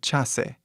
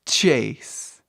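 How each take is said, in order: First: The final e is pronounced as a vowel. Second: The final e is silent. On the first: This is how it was said centuries ago. "provavelmente seria pronunciado Chase ou Chase, tipo Chase, assim, né, do português" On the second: This is how it is said today. "É como você fala meu nome"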